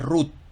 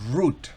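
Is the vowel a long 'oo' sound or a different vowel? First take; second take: different vowel; long oo. First: The vowel is not a long 'oo' sound. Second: The vowel is a long 'oo' sound. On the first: The speaker calls it wrong. "no es root, no" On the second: The speaker calls it right. "el sonido español de la U larga"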